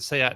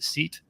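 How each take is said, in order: First: The name has its original pronunciation. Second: The name has an American English pronunciation.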